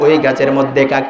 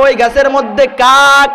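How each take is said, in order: First: Gentle, patient reply with a smile; smiling answer. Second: Exasperated snap at father about the crow; angry scolding. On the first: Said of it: "আমি আবার হাসি মুখে জবাব দিলাম". (হাসি মুখে নরম জবাব) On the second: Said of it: "রাগান্বিত হয়ে বাবাকে ধমক দিয়ে বলে". (বিরক্ত হয়ে ধমক) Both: Retold or imitated.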